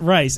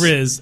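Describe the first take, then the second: First: The name sounds like the word 'rice'. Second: The name has a short vowel and buzzing end. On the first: The speaker calls it wrong. "isn't Rice something that most people eat" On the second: The speaker calls it right. "I think it's actually pronounced Riz"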